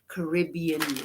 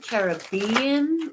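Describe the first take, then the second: First: The stress is on the second syllable, rib. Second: The stress is on the third syllable, bee. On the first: "or do you c- pronounce it personally" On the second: "like Buzz Buzz Bee"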